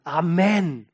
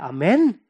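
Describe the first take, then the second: First: Firm Amen falling at the end; imitated emphatic group response; congregation's answer. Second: Loud Amen put as a question; preacher prompting with a questioning Amen; demanding question. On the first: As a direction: answer the preacher with a decisive Amen. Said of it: "die Gemeinde muss antworten". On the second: Retold or imitated. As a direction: throw Amen at the congregation, asking for confirmation. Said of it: "als Frage".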